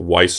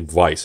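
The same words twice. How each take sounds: First: The word begins with an English W sound. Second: The word begins with a V sound. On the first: This is how most people in America say it. The speaker calls it wrong. "most people in America pronounce it" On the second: This is the original German pronunciation. The speaker calls it right. "It's more of a V because it's German"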